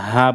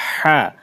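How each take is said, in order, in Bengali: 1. h ধ্বনিটি সাধারণ ও হালকা। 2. h ধ্বনিটি গলা থেকে চাপ দিয়ে উচ্চারিত। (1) "যদি হা বলি তাহলে ভুল হবে" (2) "ভিতর থেকে নিয়ে আসতে হবে"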